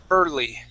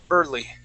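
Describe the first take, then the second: The two takes are said the same way.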